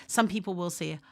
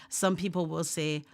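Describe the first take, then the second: The two takes are said the same way.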